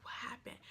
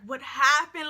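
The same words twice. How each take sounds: First: Hushed, very soft question; retold whisper. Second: Louder, slow, baffled reaction; retold disbelief. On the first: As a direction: whisper it discreetly to a cousin. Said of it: "I, like, whisper to her". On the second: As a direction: ask it aloud, drawn out, in mock shock. Retold shock at the scene.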